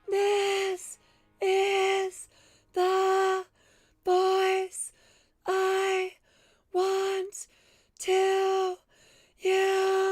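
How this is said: It is said at a high pitch.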